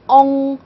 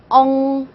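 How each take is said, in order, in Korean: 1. 이 발음은 'eo'처럼 중간 발음이에요. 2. 이 발음은 'eo'처럼 중간 발음이에요.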